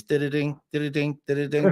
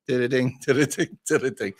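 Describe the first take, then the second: First: Sing-song did-a-ding chime, rising at the end; door alarm chime. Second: Did-a-ding chime with a laugh, falling at the end; alarm chime. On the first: Trucker mimics his lorry's door alarm, sing-song chime. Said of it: "the first noise you hear in a daf". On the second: Trucker mimics the alarm going off while driving, laughing chime. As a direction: chime it out again, chuckling, letting it fall. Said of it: "and get". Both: Retold or imitated.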